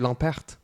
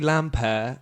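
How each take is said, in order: First: The name ends with a clear T sound. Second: The name ends without a T sound. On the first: This is how it is said in Belgium. "They'll say the T" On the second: This is how it is said in France. "the reason I don't say the final T"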